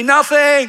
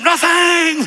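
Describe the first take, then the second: First: High, loud call-out; shouted declaration. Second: Very high, loud defiant declaration; shouted with attitude. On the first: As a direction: shout it for the crowd to repeat. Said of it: "say it after me". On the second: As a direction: belt it out with full attitude. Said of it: "Say it with attitude". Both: Shown as a demonstration.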